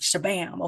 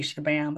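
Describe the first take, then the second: First: It is said with lively, spicy energy. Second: It is said flatly, without energy.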